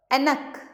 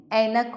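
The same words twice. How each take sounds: First: ऐनक pitched high with a short "e" start; higher ऐनक with the first vowel narrowed; wrong vowel. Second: Said in the usual way. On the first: Shown as a demonstration. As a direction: say ऐनक as "e-nak", not "ai-nak". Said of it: "नहीं, ऐनक होता है". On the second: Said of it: "ऐनक होता है".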